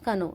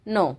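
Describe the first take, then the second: First: The word begins with a k sound. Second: The word begins with an n sound. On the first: The speaker calls it wrong. "वैसे के एन O W क्या बनता है हमारा?" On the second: The speaker calls it right. "के है जो वो साइलेंट लेटर है"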